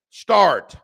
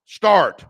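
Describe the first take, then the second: No difference in how they are said.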